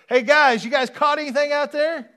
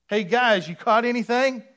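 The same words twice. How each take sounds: First: Much higher, loud, breezy greeting; casual Jesus voice. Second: Higher, loud, breezy call; mock casual greeting. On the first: Retold or imitated. Preacher voicing Jesus as a casual pal, high and loud. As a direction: call out like a buddy from the shore. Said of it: "he wouldn't have said it like that". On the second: Preacher mocking the casual greeting Jesus did not use. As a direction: toss it off like a buddy. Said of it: "he did not say".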